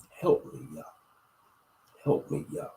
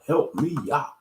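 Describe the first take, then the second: First: Whispered. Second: Said in the usual way. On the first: Shown as a demonstration. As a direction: whisper "Help me, Yah." with no voice at all. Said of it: "just say it like that". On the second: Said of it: "scream it or just say it".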